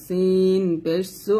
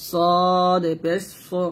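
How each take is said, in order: First: সিন said thin and light, slowly; thin Arabic sin. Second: সদ said thick and full, slowly; a heavy slow সদ; heavy Arabic sad. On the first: Tutor sets the thin সিন against সদ, light. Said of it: "এটা হচ্ছে সিন পাতলা". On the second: Tutor sets the heavy সদ against সিন, full. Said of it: "সদ জের সই বলতে হবে মোটা করে". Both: Shown as a demonstration.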